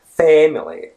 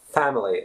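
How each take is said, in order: First: The first vowel is a heavily exaggerated eh. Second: The first vowel is an open a sound. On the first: "it's not very stressed. It's not family or something like that" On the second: "It's not family at all. It's what we foreigners would be probably more used to because the British pronunciation has the a sound"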